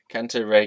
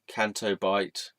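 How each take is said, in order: First: The second word sounds like 'ray'. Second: The second word sounds like 'bite'. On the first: The speaker calls it wrong. "I used to call it Canto Ray" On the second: The speaker calls it right. "I just said it right the first time"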